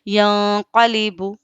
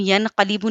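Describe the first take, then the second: First: The n is hidden as nasalization before q. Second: The n is pronounced clearly before the q. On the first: The speaker calls it right. "बल्कि क्या पढ़ेंगे?" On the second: The speaker calls it wrong. "हम यनक़लिबु नहीं पढ़ेंगे"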